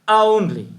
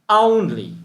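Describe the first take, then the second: The two takes are said the same way.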